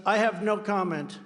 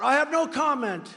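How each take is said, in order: First: Said in the usual way. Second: Higher, louder mock shout of the answer. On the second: DeSantis answering reporters, a mock shout. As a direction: bark out no comment as a retold shout. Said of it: "He shouts out".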